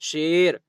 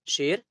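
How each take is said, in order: First: The vowel is stretched out long. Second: The vowel is kept short, not stretched. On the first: The speaker calls it wrong. "ऐसा नहीं पढ़ेंगे" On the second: The speaker calls it right. "जो या खूब खींच कर नहीं पढ़ी जाती है"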